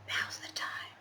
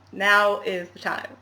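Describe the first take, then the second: First: Whispered, suspenseful and hushed; mock-dramatic hushed whisper. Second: Slow, weighty "now is the time"; mock-grand slow proclamation; dramatic announcement. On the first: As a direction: breathe it like a movie trailer teaser. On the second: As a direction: lean on each word of "now is the time" like a trailer voice. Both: Shown as a demonstration. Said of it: "I need some dramatic music".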